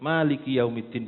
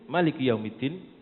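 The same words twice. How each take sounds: First: The first vowel is held long. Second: The first vowel is kept short. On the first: "bisa dibaca manya panjang" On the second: "bisa dibaca manya pendek"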